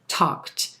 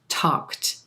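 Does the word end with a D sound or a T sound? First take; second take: T sound; T sound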